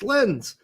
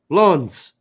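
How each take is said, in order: First: The word sounds like 'lens'. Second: The word sounds like 'lawns'. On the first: This is how the spelling with an E reads. The speaker calls it wrong. "Don't spell it with an E. That's lens" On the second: This is how the city's name is said. The speaker calls it right. "It's pronounced lawns, apparently. / Lawns. That's it"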